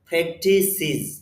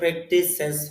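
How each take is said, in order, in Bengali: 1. শেষ অংশটি 'iz' দিয়ে শেষ হয়। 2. শেষ অংশটি 'ez' দিয়ে শেষ হয়।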